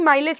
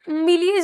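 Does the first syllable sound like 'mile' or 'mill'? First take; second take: mile; mill. First: The first syllable sounds like 'mile'. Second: The first syllable sounds like 'mill'. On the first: The speaker calls it right. "माइलेज कहते हैं" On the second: The speaker calls it wrong. "मिलीज नहीं"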